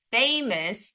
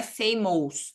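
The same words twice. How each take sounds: First: "famous" said FAY-mus, the English way, with a plain second syllable; correct English famous. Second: "famous" said wrongly as fay-MOWS, the second syllable read like a Portuguese "ows"; mock the learner's error, reading out "famous" letter by letter as fay-mows; wrong pronunciation. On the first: Teacher modelling "famous" for her students the right way. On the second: Teacher showing students the mistake to avoid, with "famous" said as fay-mows. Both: Shown as a demonstration. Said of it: "não é famous".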